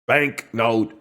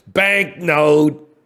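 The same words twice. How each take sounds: First: It is said in a normal voice. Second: It is said in a funny put-on voice.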